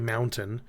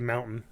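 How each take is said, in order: First: The T sound is pronounced. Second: The T sound is dropped. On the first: "we don't say mountain" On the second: "we pronounce it without a T"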